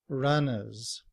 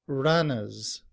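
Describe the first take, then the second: No difference in how they are said.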